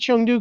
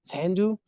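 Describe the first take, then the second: First: The name is said in standard Mandarin. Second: The name is said in the local Sichuan dialect. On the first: This is the standard national form. "I say Chengdu because I, I speak Mandarin" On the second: This is how local people say it. "local pronunciation. I've heard a lot of people say tendu"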